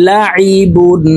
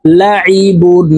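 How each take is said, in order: First: লাইবুন with the আইন pressed from the middle of the throat; throat-pressed ain in লাইবুন. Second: লাইবুন with the আইন pressed from the middle of the throat, slowly; drawn-out demo of লাইবুন; ain from the throat. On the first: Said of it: "হলকের মধ্যখান থেকে চাপ দিয়ে উচ্চারণ করতে হবে". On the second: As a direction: press the ain from mid-throat, not as a hamza. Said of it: "আইনকে হলকের মধ্যখান থেকে চাপ দিয়ে উচ্চারণ". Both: Shown as a demonstration.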